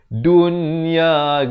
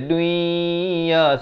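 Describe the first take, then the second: First: The n sound is pronounced clearly. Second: The n sound merges into the next sound. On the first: The speaker calls it right. "di sini kena jelaskan" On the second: The speaker calls it wrong. "Jangan baca dunia. Salah"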